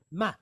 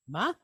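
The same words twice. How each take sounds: First: Ma. said as a question, voice rising; upward inflection. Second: Said in the usual way. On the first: Shown as a demonstration. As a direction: lift the end of Ma. like asking what. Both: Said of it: "with the upward inflection".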